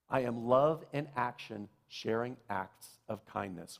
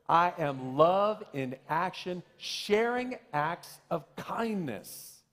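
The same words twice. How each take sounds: First: It is said calmly, without extra emphasis. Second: It is said with excited, exclamatory emphasis.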